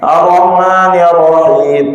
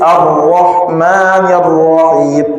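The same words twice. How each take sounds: First: The r sound is short and single. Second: The r sound is held and doubled. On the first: The speaker calls it wrong. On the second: The speaker calls it right. "ra di situ tasydid"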